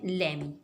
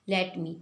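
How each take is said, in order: First: The words blend together, dropping the t. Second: Both words are said fully, with the t.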